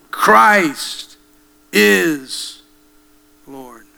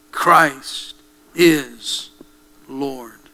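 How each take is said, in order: First: Rising shout on Christ that falls off on Lord; preaching cry. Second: Said in the usual way. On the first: Acted. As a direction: proclaim Christ is Lord with full force. Preacher repeats the confession.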